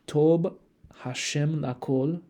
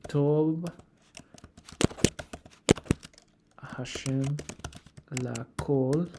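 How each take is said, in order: First: The first word ends with a b sound. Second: The first word ends with a v sound.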